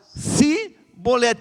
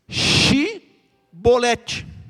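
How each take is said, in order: First: The word begins with an 's' sound. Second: The word begins with an 'sh' sound. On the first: The speaker is an outsider who cannot say the password. The speaker calls it wrong. "Mas eles falaram Sibolete, porque era um problema de pronúncia" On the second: This is the password as it should be said. The speaker calls it right. "Esse fato aqui era para falar Shibolete"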